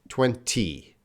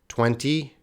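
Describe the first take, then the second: First: It is said slowly with a clear middle T. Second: It is said fast with a reduced middle T.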